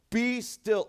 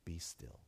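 First: Higher, louder royal command; conquering king. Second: Soft, low, gentle hush; tender father. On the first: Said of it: "something that a conquering king would say". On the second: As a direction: say it softly, a father soothing a child. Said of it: "like a loving, tender father". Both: Retold or imitated.

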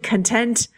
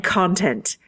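First: "content" stressed conTENT, in mock Irish; "content" as in happy, second syllable stressed. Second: "content" stressed CONtent, in mock Irish; "content" as in material, first syllable stressed. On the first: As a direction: say "content" with weight on TENT. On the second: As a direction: say "content" with weight on CON. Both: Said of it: "they do have different stresses".

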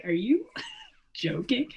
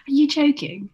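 First: Laughing mock disbelief, drawn out; retold disbelief. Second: High, loud mock incredulity on JOKING; exaggerated disbelief. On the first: Retelling a spat over accents to a co-host, mock disbelief. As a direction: retell it incredulous, slowly, through a laugh. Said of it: "I was like". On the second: Retelling a spat over accents to a co-host, hammed-up disbelief. Repeats retold retort, more exaggerated.

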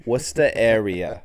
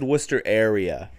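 First: Loud Boston "Wusta area"; emphatic Boston pronunciation; Boston accent. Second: Said in the usual way. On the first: Shown as a demonstration. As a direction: drop the r in Worcester, Boston style.

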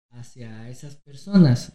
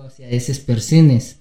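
First: Said in the usual way. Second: "esas personas" said as "eses persenes", every a turned to e; inclusive e forms. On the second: Shown as a demonstration. Co-host demonstrates the inclusive e ending, saying "eses persenes". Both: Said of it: "no digo hacia esas personas".

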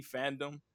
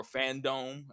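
First: "fandom" said as FAN-dum; short, reduced second syllable in "fandom"; usual pronunciation. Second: "fandom" said as FAN-dome; long oh in the second syllable of "fandom"; alternative pronunciation. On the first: Host unsure of the event name, saying "FAN-dum". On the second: Host offering another reading, saying "FAN-dome". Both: Shown as a demonstration. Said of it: "how they pronounce it".

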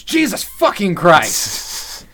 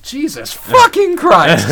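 First: Slow, drawn-out furious curse, higher and louder; angry yell. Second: Slow, drawn-out shouted curse, much higher and louder; yelled curse. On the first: Elliot cursing at the cross, slow angry shout. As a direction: spit each word out in a rage. Pretty fucking mad, yells. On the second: Elliot yelling at the cross, slow furious shout. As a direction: bellow it up at the cross. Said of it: "he yelled that at the cross". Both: Retold or imitated.

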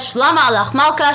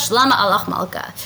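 First: Bright, emphatic royal greeting, slightly raised. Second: Said in the usual way. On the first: Retold or imitated. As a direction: hail the king with a touch of ceremony. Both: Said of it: "comes to him and says".

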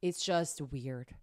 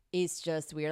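First: Low, slow, flat disgust; deadpan. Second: Said in the usual way. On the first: Real, not acted. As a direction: drag it out with distaste. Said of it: "deadpan emphasis". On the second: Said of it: "repeated plainer".

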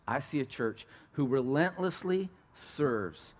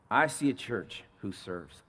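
First: Relentlessly leaned on, slow and weighty; slow down and press relentlessly; stress on relentlessly. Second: Said in the usual way. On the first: Real, not acted.

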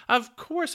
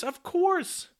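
First: Very high and loud; excited. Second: Even higher, loud, in a different voice; excited squeal. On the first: Popoff leaping to his feet, squealing excitedly. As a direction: squeal it with delight. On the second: Popoff leaping to his feet, shrieking excitedly. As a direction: top the first one, shrieking with glee. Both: A narrator's reading. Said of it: "in a sort of an excitement".

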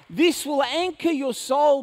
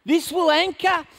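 First: Slower, weighing each word; slow emphatic repeat. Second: Preached opening. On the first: Preacher slowing down to drive the point home to the congregation. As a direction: land the phrase slowly and firmly. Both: Shown as a demonstration.

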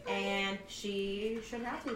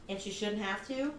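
First: "shouldn't have to" slowed right down; slow emphatic repeat. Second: Said in the usual way. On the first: Shown as a demonstration. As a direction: linger on "shouldn't have to" for weight.

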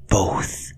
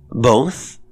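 First: Emphatic whisper. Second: Louder, higher, rising question; deliberately loud. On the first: Cook answers the governess, whispering dramatically. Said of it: "the other's whisper". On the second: Governess repeats the cook's word, deliberately loud. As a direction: repeat it aloud to counter a whisper. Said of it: "in a voice deliberately loud". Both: A narrator's reading.

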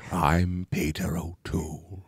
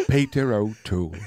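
First: Slow, breathy British whisper; Peter O'Toole. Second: Lower, softer mock British actor; Peter O'Toole. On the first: Acted. Host names himself as the actor, slow whispered British impression. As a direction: intone it softly and grandly, drawn out. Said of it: "I could do it as Peter O'Toole". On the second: Co-host imitates name-only impressions, mock British voice. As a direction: say the name like a Pokemon's cry. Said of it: "they're like".

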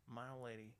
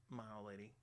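The two takes are said the same way.

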